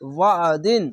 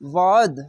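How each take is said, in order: First: The word ends with a nasal -in ending. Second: The word ends on a bare final consonant. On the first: The reading continues without stopping. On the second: The reader stops at this word.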